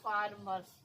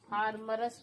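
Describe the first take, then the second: First: The r joins the s with no vowel. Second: A vowel is sounded between the r and s. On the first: The speaker calls it right. "ये पूरा रा नहीं है, र आधा है" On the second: The speaker calls it wrong. "फार्मरस नहीं पढ़िएगा"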